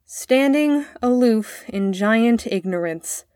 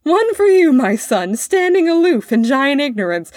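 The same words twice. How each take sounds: First: Slow, careful recitation; boy reciting poem. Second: Loud, high, jeering roar; roaring with laughter. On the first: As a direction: begin a learned verse dutifully, word by word. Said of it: "The boy began". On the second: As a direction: throw the verse back at him in noisy mockery. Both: A narrator's reading.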